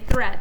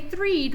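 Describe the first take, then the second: First: The vowel is a short 'eh' sound. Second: The vowel is a long 'ee' sound. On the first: The speaker calls it right. "we'd say thread" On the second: The speaker calls it wrong. "We wouldn't say threed"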